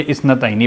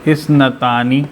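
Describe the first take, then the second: First: "इस नतैनी" with an ai glide after t; changed case ending. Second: "इस नतानी" with a drawn long taa; nominative ending. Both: Shown as a demonstration. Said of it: "ये इस नतैनी बन सकता है".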